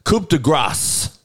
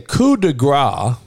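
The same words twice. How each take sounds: First: The final S sound of grace is pronounced. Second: The final S sound of grace is left silent. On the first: It means stroke of grace. The speaker calls it right. "You hear that? Coup de grace. Is how it's supposed to be pronounced" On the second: It means stroke of fat. The speaker calls it wrong. "if you say coup de grace and you don't pronounce the S"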